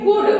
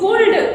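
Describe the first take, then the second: First: The L is silent in the word. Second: The L is pronounced in the word. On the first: The speaker calls it right. "एल silent होता है" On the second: The speaker calls it wrong. "कुल्ड तो नहीं पढ़ोगे आप लोग?"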